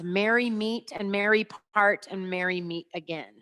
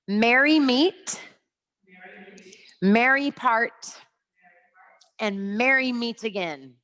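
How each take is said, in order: First: It is said at a normal, quicker pace. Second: It is said slowly, with pauses between phrases.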